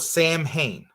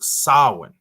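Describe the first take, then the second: First: It is said as written, Sam-hane. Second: It is said the Celtic way, Sow-in. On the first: The speaker calls it wrong. "it looks like it's spelled Sam Hain" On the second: The speaker calls it right. "in Celtic it's pronounced Samhain"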